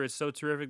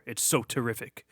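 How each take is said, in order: First: It is said in a normal reading voice. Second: It is said in a dramatic movie-trailer voice.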